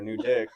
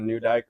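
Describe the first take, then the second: First: The last syllable has a short 'i' vowel. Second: The last syllable has a long 'i' vowel. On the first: "or a new dick"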